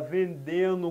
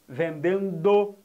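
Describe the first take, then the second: First: The D in the ending is dropped. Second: The D in the ending is clearly pronounced. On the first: The speaker calls it wrong. "muita gente por aí come esse D, fala" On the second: The speaker calls it right. "tem que pronunciar o D"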